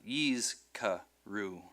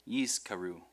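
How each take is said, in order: First: "yizkaru" slowly in three pieces, yiz, ka, ru; split by syllable. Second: Said in the usual way. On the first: Shown as a demonstration. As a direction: pause between each syllable of "yizkaru". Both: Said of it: "becomes a syllable with that consonant".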